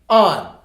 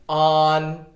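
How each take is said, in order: First: The pitch falls sharply from high. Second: The pitch stays high and level. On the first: "On on fourth tone" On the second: "On on first tone"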